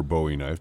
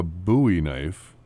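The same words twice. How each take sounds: First: "Bowie" said BOH-ee, with a long o as in "bow tie". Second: "Bowie" said BOO-ee, rhyming with "phooey". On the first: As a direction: say "Bowie" as BOH-ee, rhyming with "snowy". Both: Shown as a demonstration. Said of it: "depending on how you wanna pronounce his name".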